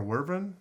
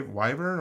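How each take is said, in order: First: WERVEN with "were" as the first syllable; uncertain pronunciation. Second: WYVERN with a long "eye" in the first syllable; alternative pronunciation. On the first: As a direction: say WERVEN as WUR-ven. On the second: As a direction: say WYVERN as WHY-vern. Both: Shown as a demonstration. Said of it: "cannot remember how to pronounce it".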